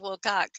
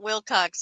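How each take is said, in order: First: The name ends with a plain k sound. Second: The name ends with a ks sound. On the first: The speaker calls it right. "it's Will Cock" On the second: The speaker calls it wrong. "it's not Will Cox"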